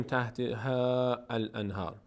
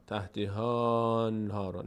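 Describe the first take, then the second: First: تحت ها الانهار with the alif pronounced; wrong reading. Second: Slow تحت ها انهار, ها linked straight to لام; correct joining. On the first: Teacher showing the wrong joining. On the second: Teacher showing the correct joining. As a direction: glide ها into انهار slowly. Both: Shown as a demonstration.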